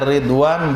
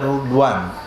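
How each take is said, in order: First: The first vowel is an 'i' sound. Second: The first vowel is a 'u' sound. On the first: "boleh dibaca dengan kasrah awalnya ridwan" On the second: "Boleh juga dhamma awalnya rudwan"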